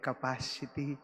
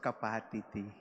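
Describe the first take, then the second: First: The word is said with its usual sounds. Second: The word is said with altered, unusual sounds. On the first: The speaker calls it right. "instead of saying capacity" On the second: The speaker calls it wrong. "the father also pronounced capacity"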